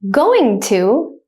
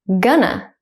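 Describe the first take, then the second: First: Both words are said fully and separately. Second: The words blend into one short word.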